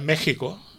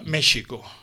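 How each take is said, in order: First: The middle consonant is a harsh guttural h. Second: The middle consonant is a soft sh sound. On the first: This is how the name is said today. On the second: This is how the name was said centuries ago.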